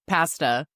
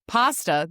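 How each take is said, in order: First: The word is said with a Canadian accent. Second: The word is said with an American accent. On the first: "the Vancouver style" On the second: "the U S style"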